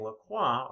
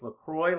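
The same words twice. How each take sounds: First: The ending does not rhyme with enjoy. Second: The ending rhymes with enjoy. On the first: The speaker calls it wrong. "all those who are saying LaCroix are making a huge mistake" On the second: The speaker calls it right. "they say it's LaCroix like enjoy"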